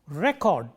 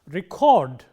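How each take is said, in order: First: The stress is on the first syllable. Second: The stress is on the second syllable. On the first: It is used as a noun. "Stress on the first syllable as a noun" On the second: It is used as a verb. "Stress on the second syllable, used as a verb"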